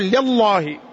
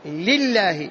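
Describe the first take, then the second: First: The L is pronounced heavy. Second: The L is pronounced thin. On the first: The speaker calls it wrong. "ما تقول" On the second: The speaker calls it right. "لأن اللام مكسورة"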